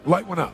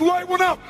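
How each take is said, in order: First: It is said in a calm, casual way. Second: It is said in a crazy, agitated way.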